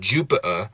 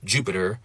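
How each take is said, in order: First: The T is a glottal stop. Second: The T is a quick tap. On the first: "I can make it a glottal stop" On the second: "I can make it a tap"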